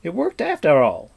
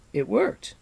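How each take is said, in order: First: Loud, falling tune on "worked"; triumphant shout, "worked" landing firmly down; astonished exclamation. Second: High rising gasp on worked; astonished cry. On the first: Bard cheers the riders' retreat, loud falling exclamation. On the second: Bard sees the riders turn back, astonished rising cry. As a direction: disbelief turning to joy, tune rising on "worked". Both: Acted. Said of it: "cried the astonished Fflewddur".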